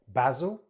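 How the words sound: It is said with a British accent. "in British English"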